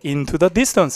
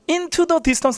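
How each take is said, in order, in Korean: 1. 'into the' 단어는 약하게 말해요. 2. 'into the' 단어는 강하게 말해요. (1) "이게 약하게 into the distance 이렇게 하셔야 돼" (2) "하면 안 돼"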